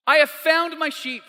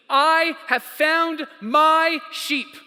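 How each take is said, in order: First: High, excited announcement in one run; rejoicing. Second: Each word of "I have found my sheep" stretched out, high; "I have found my sheep" in slow, ringing triumph; drawn-out rejoicing. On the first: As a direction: announce the good news in one quick phrase. Repeats the rejoicing at quicker pace. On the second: Acted shepherd's rejoicing, drawn out. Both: Acted.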